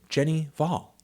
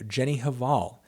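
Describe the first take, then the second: First: The surname begins without an H sound. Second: The surname begins with an H sound. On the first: The speaker calls it right. "without the H" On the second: The speaker calls it wrong. "pronounced with the H"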